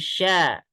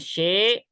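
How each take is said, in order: First: The vowel sounds like a. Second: The vowel sounds like e. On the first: The speaker calls it right. "tapi sya" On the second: The speaker calls it wrong. "Jangan she ya, ini jadi imala"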